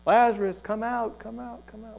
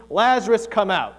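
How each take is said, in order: First: Imitated echo. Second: Loud, commanding call into a tomb; booming shout. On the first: Jesus shouting into a cave, imitated echo dying away. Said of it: "Maybe it even echoed". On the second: Acted. Jesus calling his dead friend out of the tomb, booming shout. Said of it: "He shouts into the tomb".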